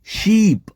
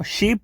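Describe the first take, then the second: First: શીપ with a long, drawn-out ee; long vowel. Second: શીપ with a short, quick i; short vowel. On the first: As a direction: stretch the ee in શીપ, as in sheep. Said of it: "આ રીતે લાંબુ બોલવાનું હોય છે". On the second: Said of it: "આ રીતે લાંબુ બોલવાનું". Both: Shown as a demonstration.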